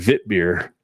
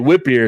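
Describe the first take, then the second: First: The first word begins with a V sound. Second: The first word begins with a W sound. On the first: The speaker calls it right. "is actually vit beer" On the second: The speaker calls it wrong. "people say whip beer"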